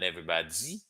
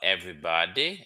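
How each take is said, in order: First: The d has a hissing z-like release. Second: The d is a plain, clean stop. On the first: The speaker calls it wrong. "not everybody" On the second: The speaker calls it right. "in English you would normally say"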